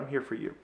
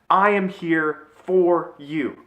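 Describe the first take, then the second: First: It sounds casual and offhand, like a cliche. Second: It sounds earnest and sincere, meant for real.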